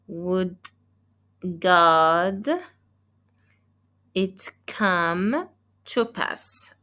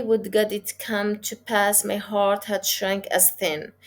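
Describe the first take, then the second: First: Word by word with pauses between, slowly, marking each beat; a slow, deliberate scansion read; scanning the meter. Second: One flowing phrase with no pause, carried across the line break; teacher reading the line as one unbroken phrase; read straight through. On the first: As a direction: tap out the iambs, slow and separated. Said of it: "always unstressed, stressed". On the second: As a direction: run the line on without stopping. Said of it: "I didn't find the pause at the end of the line". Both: Shown as a demonstration.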